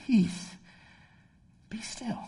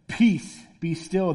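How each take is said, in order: First: Soft, sleepy murmur fading to a whisper; just woken up. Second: Firm, understated divine command; mildly booming command. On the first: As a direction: groggily whisper the command with long pauses. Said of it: "Jesus was like us. He kinda woke up". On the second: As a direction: say it as the expected commanding voice, lightly played. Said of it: "just booming voice that, like, echoes". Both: Acted.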